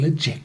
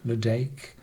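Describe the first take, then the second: First: The name is said with a soft 'j' sound. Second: The name is said with a hard 'd' sound. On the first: "in a Gaelic way" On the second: "In English pronunciation"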